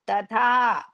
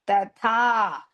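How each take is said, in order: The two takes are said the same way.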